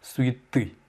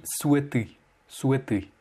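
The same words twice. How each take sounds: First: Souhaiter as "su-yi-TY", stressed at the end; final-syllable stress. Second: Souhaiter said as "SWE-ty", no y-glide; imitated mispronunciation. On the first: Shown as a demonstration. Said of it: "sur la dernière syllabe". (Souhaiter accentué sur la dernière syllabe) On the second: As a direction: copy the learner's souhaiter with an e. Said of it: "tu as dit souhaiter". (souhaiter prononcé « soué », imitant l'élève)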